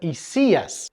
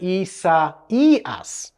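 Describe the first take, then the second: First: The middle vowels merge into one diphthong. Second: The middle vowels are said as separate syllables. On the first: The speaker calls it wrong. "you'd naturally pronounce it Isias ... that middle diphthong" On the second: The speaker calls it right. "it's actually got four syllables, and so we would pronounce it Isaias"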